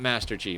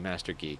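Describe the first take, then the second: First: The G is said like the letter name. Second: The G is short, followed by a long E. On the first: The speaker calls it wrong. "Not Master G" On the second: The speaker calls it right. "short G, long E"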